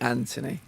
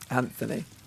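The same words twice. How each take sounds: First: The name is said with an English pronunciation. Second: The name is said with an American pronunciation. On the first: "in England we say" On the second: "Americans that say"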